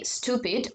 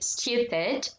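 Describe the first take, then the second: First: It is said American style with a plain oo. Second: It is said British style with a yoo sound. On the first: "they would not say stupid" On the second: "They would say stupid"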